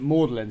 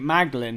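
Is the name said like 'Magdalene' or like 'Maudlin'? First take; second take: Maudlin; Magdalene. First: It is said as 'Maudlin', rhyming with Audley. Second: It is said as 'Mag-da-lene', all letters sounded. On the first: The name echoes the founder's own name. "he's pronounced it Magdalen, so it sounded like Audley" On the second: This is the expected way to say the name. "instead of pronouncing it Magdalen"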